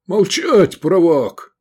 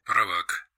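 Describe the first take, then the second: First: High, loud furious bellow; roaring. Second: Said in the usual way. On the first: A narrator's reading. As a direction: roar to silence the navigator. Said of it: "заревел полковник". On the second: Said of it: "Штурман-оператор".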